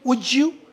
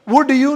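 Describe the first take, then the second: First: The two words are run together. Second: The two words are said separately. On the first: The speaker calls it right. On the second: The speaker calls it wrong.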